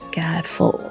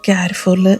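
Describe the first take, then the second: First: The final r sound is left silent. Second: The final r sound is pronounced. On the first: The speaker calls it right. "ആറ് സൈലൻ്റാണ്" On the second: The speaker calls it wrong. "കാരിഫോറല്ല"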